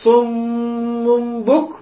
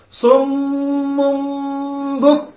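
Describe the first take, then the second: First: صم بك slow, ghunna of صم longer than the hidden meem; right tajweed reading; correct ghunna. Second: صم بك with equal ghunna, slow; wrong reading. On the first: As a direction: hold صم's doubled meem, lighter ikhfa on بك. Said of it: "فشو نقرأ كذا". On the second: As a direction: make both ghunnas the same, the common error. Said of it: "الخطأ اللي يصير". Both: Shown as a demonstration.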